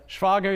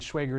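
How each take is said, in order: First: The name is pronounced the German way. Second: The name is pronounced the American way. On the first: "Schwager is in German" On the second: "Schwager is Americanized"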